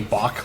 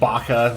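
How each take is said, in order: First: It is said like the composer's name Bach. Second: It has a hard k sound, like 'baka'. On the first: The speaker calls it right. "like the musician" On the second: The speaker calls it wrong. "like dumb in Japanese"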